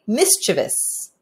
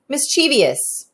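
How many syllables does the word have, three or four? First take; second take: three; four. First: The word is said with three syllables. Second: The word is said with four syllables. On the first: The speaker calls it right. "You're supposed to say mischievous" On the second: The speaker calls it wrong. "I don't know if I'm saying that right"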